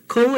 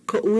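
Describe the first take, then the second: First: "ko" as one unbroken glide; ko without okina. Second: "ko'u" broken into ko-oo; "ko'u" with a glottal stop mid-word; ko'u with okina. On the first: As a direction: say "ko" smoothly, no catch. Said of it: "ko is your". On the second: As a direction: put a catch before the u in "ko'u". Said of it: "ko'u is my". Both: Shown as a demonstration.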